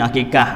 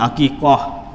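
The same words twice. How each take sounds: First: It is pronounced with Malay sounds. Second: It is pronounced with Arabic sounds. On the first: This is the everyday local pronunciation. "Melayu ni akikah" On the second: This is the original pronunciation. "bahasa Arabnya akikah"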